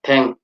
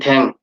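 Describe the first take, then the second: First: The word begins with a t sound. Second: The same.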